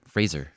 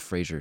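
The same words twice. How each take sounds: First: The name rhymes with razor. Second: The name does not rhyme with razor. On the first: This is the correct way to say it. The speaker calls it right. "Like Razor" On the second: This is the common way people say it. The speaker calls it wrong. "Everybody says Fraser"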